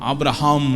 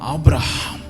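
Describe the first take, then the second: First: The 'h' sound is faint and barely breathed. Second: The 'h' sound is strong and clearly breathed. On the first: The speaker calls it wrong. "ஆபிரஹாம் இல்லை" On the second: The speaker calls it right. "நல்லா சொல்லுங்களேன்"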